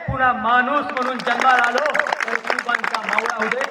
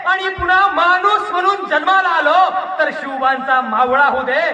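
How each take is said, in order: First: Fervent repeat, settling. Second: High, full-voiced declamatory shout; fervent climax. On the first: Acted. Orator closing his plea to God, loud and settling. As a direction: repeat the wish firmly, bringing the plea to rest. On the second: Orator begging to be Shivba's soldier, high fervent shout. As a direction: cry the wish out at the peak of the plea.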